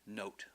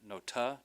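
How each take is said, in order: First: The word ends on a consonant sound. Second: The word ends with an added vowel sound. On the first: The speaker calls it right. "just note, like the word note" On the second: The speaker calls it wrong. "not like a nota"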